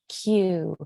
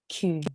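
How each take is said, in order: First: The letter is said heavily and harshly, English-style. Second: The letter is said softly with rounded lips, French-style. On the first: "in English, we would say Q. It's a lot more um, uh, heavily pronounced. It's a little harsher" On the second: "but in French, it's softer. It's more delicate"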